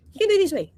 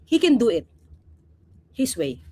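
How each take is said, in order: First: He can do it his way, pitched high, pressing the point; emphatic repeat. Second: Said in the usual way. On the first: Shown as a demonstration. Defending the president's calm style, an emphatic repeat. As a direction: repeat it higher with conviction.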